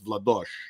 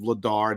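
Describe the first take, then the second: First: The surname is said the Czech way. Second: The surname is said the English way. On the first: The speaker calls it right. "Is the actual pronounce of the last name" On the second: The speaker calls it wrong. "it's not Dan Vladar"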